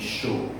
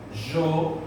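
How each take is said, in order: First: The word starts with an sh sound. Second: The word starts with a soft zh sound. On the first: "um som de X" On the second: "com o som de J"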